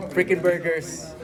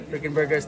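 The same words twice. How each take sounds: First: Slow, drawn-out sponsor shout-out; hype announcer. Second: Said in the usual way. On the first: Acted.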